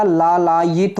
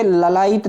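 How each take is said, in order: First: लालायित with long first laa; correct form. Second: ललायित with short first la; wrong form. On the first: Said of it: "होता है". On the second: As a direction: say ललायित as la-laa-it. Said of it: "नहीं होता". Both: Shown as a demonstration.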